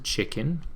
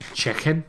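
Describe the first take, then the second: First: It is said in the speaker's usual accent. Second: It is said in a Liverpool accent.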